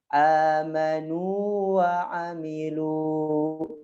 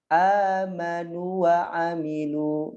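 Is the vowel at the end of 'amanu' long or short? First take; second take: long; short. First: The vowel before wa is held long. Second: The vowel before wa is short and merged. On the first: The speaker calls it right. "Harus panjang" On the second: The speaker calls it wrong. "Enggak boleh"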